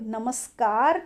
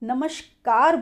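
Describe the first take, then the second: First: The word is said in its standard form. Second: The word is said in a common variant form. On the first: The speaker calls it right. "नमस्कार की जगह" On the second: The speaker calls it wrong. "बहुत से लोग ... बोलते हैं"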